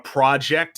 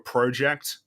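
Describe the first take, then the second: First: The o sounds closer to an a. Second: The o keeps a rounded o sound. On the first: "O's are kind of like A's" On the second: "instead of a project"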